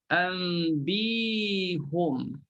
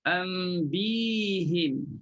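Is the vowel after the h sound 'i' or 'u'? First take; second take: u; i. First: The h is followed by an u vowel. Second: The h is followed by an i vowel. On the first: This is the reading chosen by most scholars. "huruf ha itu dibariskan dengan baris depan" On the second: This is the reading of some reciters of one tradition. "dia bariskan dengan baris bawah"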